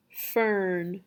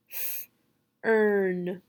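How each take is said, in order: First: Said in the usual way. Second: FERN split into voiceless "f", then held "earn"; sounding out. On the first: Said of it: "you will say the whole word". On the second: Shown as a demonstration. Teacher leading the student through fern, sounding out. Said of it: "Say the sounds with me".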